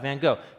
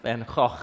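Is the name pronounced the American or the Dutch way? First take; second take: American; Dutch. First: The name is said with an American pronunciation. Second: The name is said with a Dutch pronunciation. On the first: The speaker calls it wrong. "that's the American way of pronouncing it" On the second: The speaker calls it right. "It's actually pronounced"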